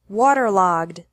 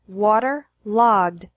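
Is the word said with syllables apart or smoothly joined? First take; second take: smoothly joined; apart. First: The syllables run together without a pause. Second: The syllables are separated by a pause. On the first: "once normally" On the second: "once with the syllables separated"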